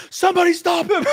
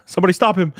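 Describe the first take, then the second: First: Very high, loud squeal breaking into laughter; hammed-up falsetto scream; mock panic. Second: Raised, louder playful plea; hammed-up urgent shout; mock alarm. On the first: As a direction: shriek it in fake desperation. Mock alarm, repeated far higher. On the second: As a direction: call for help in fun. Mock alarm at deleted old meme.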